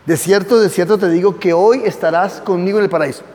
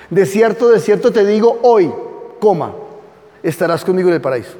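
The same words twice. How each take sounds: First: "hoy" opens the promise, pause before it; stress on hoy. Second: "hoy" ends the first clause, then "estarás conmigo" comes fast; comma after hoy. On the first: Teacher reads the verse to the class with "hoy" leading into "estarás". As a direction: read "De cierto te digo que hoy estarás" with "hoy" joined to "estarás". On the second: Teacher shows the Jehovah's Witness reading, with a comma after "hoy". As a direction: pause after "hoy" as if a comma stood there. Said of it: "Los testigos de Jehová hacen esto, le ponen una coma". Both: Shown as a demonstration.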